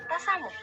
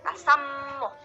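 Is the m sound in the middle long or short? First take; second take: short; long. First: The m sound is short and light. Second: The m sound is long and doubled. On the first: "Diucapannya ringan" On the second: "Tapi ada juga yang tasammuh gitu"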